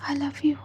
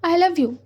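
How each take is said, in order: First: It is said very softly. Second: It is said loudly and clearly.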